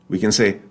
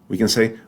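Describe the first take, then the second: The two takes are said the same way.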